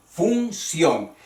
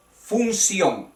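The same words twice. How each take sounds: First: Función in two separate beats, fun-CIÓN; careful teacher's division of Función; split into syllables. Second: Said in the usual way. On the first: Shown as a demonstration. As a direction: sound out Función, stressing the final ción. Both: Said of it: "todas las palabras terminadas en ción".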